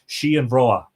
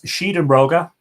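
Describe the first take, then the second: First: The name ends without a g sound. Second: The name ends with a hard g sound. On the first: This is the modern form of the name. "in a sort of a more modern pronunciation" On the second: This is the old form of the name. "the original name of the monument uh, in the manuscripts"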